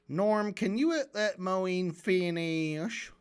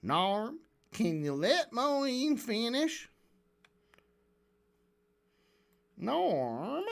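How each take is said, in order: First: Very slow, stretched southern drawl. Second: Cartoonish southern drawl, slow and swooping; Lex Friedman. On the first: Retold or imitated. Host mimicking moderator asking Norm to let someone finish, southern drawl. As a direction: draw the words out in a mock southern accent. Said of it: "I wish Lex Friedman had a southern drawl". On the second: Host giving the moderator a silly voice, cartoonish southern drawl. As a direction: exaggerate a silly southern accent, stretching each vowel. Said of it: "cartoonishly southern accent".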